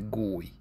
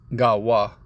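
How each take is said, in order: First: The word is pronounced as goy. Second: The word is pronounced as gawa. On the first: "or as they say" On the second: "that's the proper way to say it"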